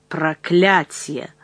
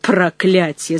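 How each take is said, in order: First: Slow, drawn-out curse, held in; furious hiss. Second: Mild, contained angry cry; shouted curse. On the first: Jealous suitor curses at Aurora, hissing in rage. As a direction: seethe it slowly under control. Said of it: "он прошипел в ярости". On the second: Gaillard curses at Aurora's warning, understated angry shout. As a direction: curse aloud with a touch of temper. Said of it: "закричал Гайяр". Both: A narrator's reading.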